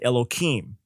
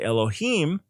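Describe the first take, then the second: First: The word has an altered, substituted pronunciation. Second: The word has its standard pronunciation. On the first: This avoids saying the sacred name out of reverence. "they instead will say Elohim. They pronounce it differently" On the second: This is the form used when reading Scripture or praying. "when they say Elohim"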